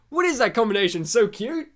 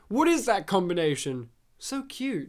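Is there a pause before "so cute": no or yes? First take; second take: no; yes. First: It runs on as one question without pause. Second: There is a pause before "so cute."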